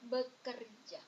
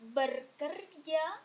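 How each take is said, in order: First: The first syllable has no R sound. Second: The first syllable ends with an R sound. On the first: The speaker calls it right. "but it's bekerja" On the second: The speaker calls it wrong. "It's not berkerja"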